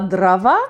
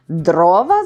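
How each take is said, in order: First: The stress is on the second syllable. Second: The stress is on the first syllable. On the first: This is the form borrowed from another language. The speaker calls it wrong. "російське слово" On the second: This is the standard form of the word. The speaker calls it right. "знає наша мова"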